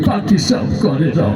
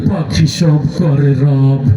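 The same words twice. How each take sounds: First: It is recited in a crying, tearful way. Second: It is recited in a menacing, frightening way. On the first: "ও তো কান্দি দিয়ে কয়" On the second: "তোরটা তো আরো বেশি ভয়ঙ্কর শোনা গেল"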